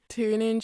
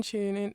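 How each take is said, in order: First: "Tune" begun with a hard "t"; American-style "Tune in", plain t onset; American TU sound. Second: "tune" begun with a "ch"; British-style "tune in", ch onset; British TU sound. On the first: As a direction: say "Tune" as "toon". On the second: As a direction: say "tune" as "choon". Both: Shown as a demonstration. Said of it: "how the T U sound changes".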